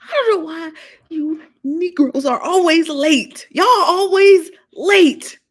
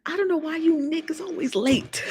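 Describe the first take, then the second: First: Higher, louder, slow drawn-out scolding; loud mock scold. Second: Teasing scold, whispered. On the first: Host teasing late viewers, loud mock scolding. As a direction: belt it like an exasperated auntie. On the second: Acted. Host teasing late viewers, whispered scold. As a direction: hiss the complaint under breath.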